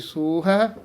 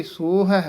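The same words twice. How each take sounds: Both takes have the same delivery.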